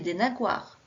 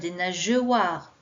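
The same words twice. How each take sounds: First: The g is hard, like in go. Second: The g is soft, like the j sound. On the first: "Si je ne mets pas le E" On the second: "je devrais lire"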